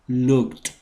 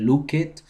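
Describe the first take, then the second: First: The ending is a short, sharp t sound. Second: The ending is an extra syllable, "id". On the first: The speaker calls it right. "el sonido al final va a ser el de una T explosiva" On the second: The speaker calls it wrong. "tampoco se lee look it"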